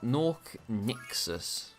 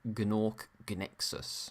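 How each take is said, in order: First: Both words begin with a plain N sound. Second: Both words begin with a G sound before N.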